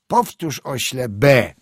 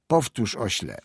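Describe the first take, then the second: First: Louder, sharper repeated order; impatient command. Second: Said in the usual way. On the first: A narrator's reading. Teacher orders the silent pupil to repeat, impatient. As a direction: demand it forcefully, raised voice.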